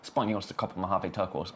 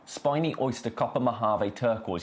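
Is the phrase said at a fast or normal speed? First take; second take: fast; normal. First: The phrase is said quickly. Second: The phrase is said at a normal speed.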